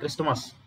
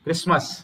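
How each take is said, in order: First: A t sound is pronounced in the middle. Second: No t sound is pronounced in the middle. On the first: The speaker calls it wrong. "It is not క్రిస్టమస్" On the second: The speaker calls it right. "క్రిస్మస్ లో టీ silent"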